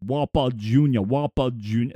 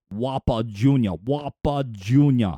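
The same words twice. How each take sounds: First: Lightly voiced Sean Connery, low; a loose stab at Sean Connery's Scottish burr; half-hearted Sean Connery Scottish voice, a bit lower; Sean Connery attempt. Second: Deep, slowed, a hint of Austrian Schwarzenegger accent; half-hearted Arnold Schwarzenegger accent, lower; accidental Austrian Schwarzenegger ring; Schwarzenegger-ish. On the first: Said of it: "I can't do a Sean Connery impersonation". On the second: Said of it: "almost sounded a little bit like Arnold Schwarzenegger there".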